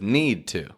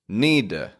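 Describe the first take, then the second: First: The 'to' is pronounced fully and clearly. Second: The 'to' is reduced to a weak 'uh'.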